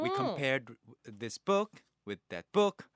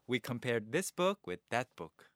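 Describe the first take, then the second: First: The stress falls on book. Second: The stress falls on that.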